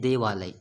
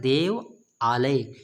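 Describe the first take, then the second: First: It is said as one merged word. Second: It is said as two separate words. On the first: The two parts are combined into one word. "यहाँ पर क्या पढ़ रहे हैं ... अंतर है ना बोलने में" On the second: The compound is shown split into its parts. "यहाँ पर जब हम लोग पढ़ रहे हैं, हम क्या पढ़ रहे हैं"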